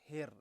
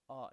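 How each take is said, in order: First: The r sound is rolled with strong pressure. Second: The r sound is smooth, without a roll. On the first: The speaker calls it right. "it rolls" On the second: The speaker calls it wrong. "It's not like a letter R"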